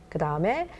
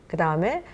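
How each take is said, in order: No difference in how they are said.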